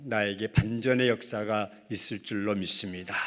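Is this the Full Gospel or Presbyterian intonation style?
Presbyterian. It uses a Presbyterian church-style intonation. "장로교는"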